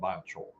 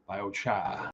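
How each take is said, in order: First: It is said in a non-New England accent. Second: It is said in a New England accent. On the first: "biochar is how you pronounce it if you're down from where Andy Zumwalt's from" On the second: "if you're up in New England, they call it biocha"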